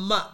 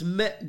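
First: The vowel is open, as in 'Matt'. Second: The vowel is mid, as in 'met'. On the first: The speaker calls it wrong. "It's not Matt" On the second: The speaker calls it right. "it's Met Gala"

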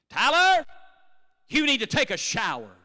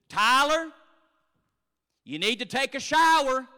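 First: It sounds like a firm command. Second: It sounds like a gentle suggestion.

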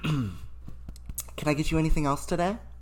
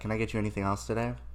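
First: It is said in a higher, put-on polite voice. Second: It is said at an ordinary speaking pitch. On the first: It is the polite voice used with customers. "You have to put on your customer service voice" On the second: It is how the speaker usually talks. "I say it in my normal voice"

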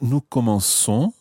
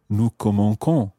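First: The c is pronounced as a soft s sound. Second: The c is pronounced as a hard k sound. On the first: The speaker calls it right. "It sounds exactly as you would expect" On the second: The speaker calls it wrong. "It would sound like K"

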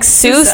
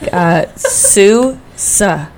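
First: It sounds like the name in 'Dr. Seuss'. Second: It sounds like the syllable 'Sue' said twice. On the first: The speaker calls it wrong. "Not like Seuss, like Dr. Seuss" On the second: The speaker calls it right. "like Sue times two"

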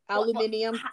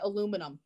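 First: It has five syllables, the British way. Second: It has four syllables, the American way.

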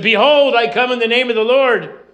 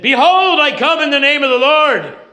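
First: The line is said at normal volume. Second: The line is said at loud volume.

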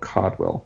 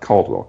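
First: No L sound is heard before the D. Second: An L sound is heard before the D. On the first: The speaker calls it right. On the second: The speaker calls it wrong. "not Caldwell"

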